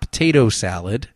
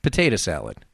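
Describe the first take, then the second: First: "potato" with a full final "oh"; standard pronunciation. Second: "potato" as "puh-TAY-duh", lower and final; Jersey pronunciation. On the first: Host showing sticklers the rejected form, "potato" ending in "oh". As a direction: say "potato" as "puh-TAY-toh". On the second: Host insisting to sticklers, "potato" ending in "uh". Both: Shown as a demonstration. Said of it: "It's not potato salad".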